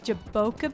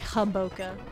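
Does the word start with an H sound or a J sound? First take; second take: J sound; H sound. First: The word starts with an English J sound. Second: The word starts with an H sound.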